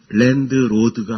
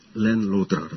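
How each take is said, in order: First: An extra vowel follows the d sound. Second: No extra vowel follows the d sound. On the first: The speaker calls it wrong. "랜드로드가 아니고" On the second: The speaker calls it right. "영어는 의 발음을 하지 않습니다"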